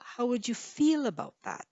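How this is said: The word feel carries the main stress. "you might stress feel"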